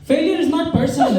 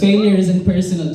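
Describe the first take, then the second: First: It is said in an Indian accent. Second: It is said in his ordinary accent.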